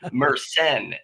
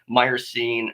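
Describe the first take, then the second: First: The word has a French-sounding pronunciation. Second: The word has a plain English-sounding pronunciation. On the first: The speaker calls it right. "the way it's supposed to be said" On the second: The speaker calls it wrong. "it's said wrong and I say it wrong as well"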